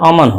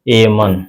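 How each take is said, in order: First: The first vowel is a short 'uh' sound. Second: The first vowel is a long 'ay' sound. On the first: The speaker calls it right. "अ बोलना है, तब न जाकर अमन होगा" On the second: The speaker calls it wrong. "अगर ए की तरफ बोले तो इसका हो जाएगा एमन"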